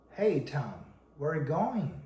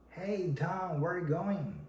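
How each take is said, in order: First: "Hey Tom" falling, then a swoop up and down on "going"; varied intonation. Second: "Hey Tom, where are you going" pitched higher all through, in gentle waves; varied intonation. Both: Shown as a demonstration. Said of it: "rise or down the intonation".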